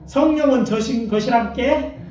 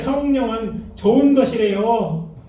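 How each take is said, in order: First: It is spoken in a Jeolla regional accent. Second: It is spoken in a Chungcheong regional accent. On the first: "전라도 버전은 버전 이렇게 얘기하시더라고" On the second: "충청도 버전"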